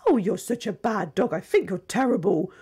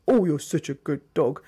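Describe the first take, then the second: First: Saying "bad dog" in a sing-song praise tone; sweet voice, harsh words. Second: "good dog" said low and harsh. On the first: Trainer showing mismatched tone, cooing "bad dog". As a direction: coo the scolding as if it were praise. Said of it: "you can't say". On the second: Trainer showing mismatched tone, harsh "good dog". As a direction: growl the praise at the dog. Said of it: "with a harsh voice". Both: Shown as a demonstration.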